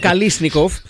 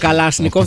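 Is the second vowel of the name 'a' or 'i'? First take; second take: i; a. First: The second vowel is an 'i' sound. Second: The second vowel is an 'a' sound. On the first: The speaker calls it right. "το λέμε Καλίσνικοφ" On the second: The speaker calls it wrong. "Δεν το λέμε Καλάσνικοφ"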